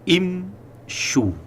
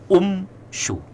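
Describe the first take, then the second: First: The first vowel is an i sound. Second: The first vowel is a u sound. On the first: The speaker calls it right. "misalnya pada kalimat imshu" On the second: The speaker calls it wrong. "bukan umshu"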